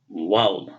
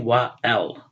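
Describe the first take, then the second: First: The two words are run together into one. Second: The two words are said separately, with a break. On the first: The speaker calls it right. "We say wal" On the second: The speaker calls it wrong. "We don't say wa al"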